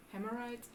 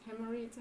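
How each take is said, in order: First: "Hemorrhoids" with the last syllable like "rights"; soft, questioning try at "Hemorrhoids", vowel "eye" at the end; trying a pronunciation. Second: "Hemorrhoids" with the last syllable like "reeds"; soft, unsure try at "Hemorrhoids", vowel "ee" at the end; trying another pronunciation. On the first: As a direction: say "Hemorrhoids" ending in an "eye" sound. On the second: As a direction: say "Hemorrhoids" ending in an "ee" sound. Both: Shown as a demonstration. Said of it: "How do you pronounce it?".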